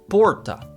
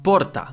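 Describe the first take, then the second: First: The R is an American R. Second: The R is a rolled trill. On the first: "like an American R" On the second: "the way I pronounced that was with a rolled R"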